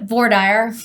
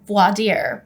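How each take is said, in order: First: It is said the Texan way. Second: It is said the standard, law-school way.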